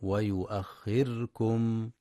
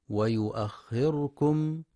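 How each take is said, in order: First: ويؤخركم with the ra silent, no vowel; careful correct reading of ويؤخركم. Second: ويؤخركم with a short a vowel on the ra; slow demo of ويؤخركم with ra voweled; wrong open R. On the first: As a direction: say ويؤخركم closing on the ra. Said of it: "والصواب سكونها". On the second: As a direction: demonstrate the error: "wa yu'akhkharakum". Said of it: "بفتح الراء". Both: Shown as a demonstration.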